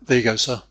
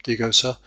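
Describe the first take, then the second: First: The vowels are reduced and run together. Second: The vowels are reduced and run together.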